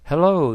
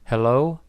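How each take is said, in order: First: "Hello" louder and higher, falling at the end; greeting hello. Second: "Hello?" with a questioning rise at the end; answering hello. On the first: Son calling his dad in hospital, emphatic falling hello. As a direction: punch "Hello" as a greeting, then let it drop. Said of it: "John said". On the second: Sick dad answering his hospital phone, questioning rising hello. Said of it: "his dad answered". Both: A narrator's reading.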